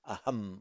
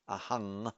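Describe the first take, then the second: First: The word ends with a closed m sound. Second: The word ends with an ng sound. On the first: This is the Sanskrit pronunciation. The speaker calls it right. "in Sanskrit it would be pronounced as aham on its own" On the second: This is the typical Pali pronunciation. The speaker calls it wrong. "not ahang, which you would tend to do in Pali"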